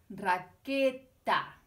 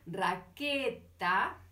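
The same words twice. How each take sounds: First: Raqueta drawn out very slowly, louder -eta ending; teacher repeats raqueta to show the ending, slow and loud; slow, aloud. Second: Raqueta drawn out very slowly, ending -eta stressed; slow, aloud. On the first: Raqueta stretched, ending -eta stressed. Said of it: "la consonante eta". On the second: Raqueta stretched out so -eta is heard. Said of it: "en voz alta para escucharla". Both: Shown as a demonstration.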